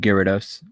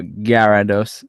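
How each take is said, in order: First: The name is said in a plain standard way. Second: The name is said with a Jamaican-style accent.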